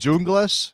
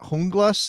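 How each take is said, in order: First: The name begins with a J sound. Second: The name begins with an H sound. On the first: The speaker calls it right. "I'm gonna go with Junglas" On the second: The speaker calls it wrong. "not Hunglas"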